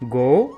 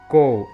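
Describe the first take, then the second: First: The word begins with a voiced g sound. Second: The word begins with a voiceless k sound. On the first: The speaker calls it right. "Instead of go" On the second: The speaker calls it wrong. "they have pronounced it as ko"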